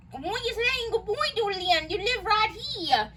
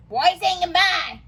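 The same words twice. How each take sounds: First: Higher, teasing repeat. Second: Said in the usual way. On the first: Shown as a demonstration.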